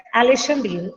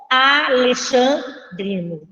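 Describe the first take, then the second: First: Said in the usual way. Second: "alexandrino" slowly split as a-lexan-drino; slow teacherly sounding-out of "alexandrino"; syllable by syllable. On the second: Shown as a demonstration. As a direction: dictate "alexandrino" in separated, drawn-out chunks. Teacher spells out new term.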